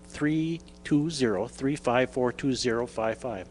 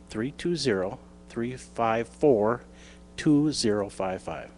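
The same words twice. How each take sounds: First: The number is said at normal speed. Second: The number is said more slowly.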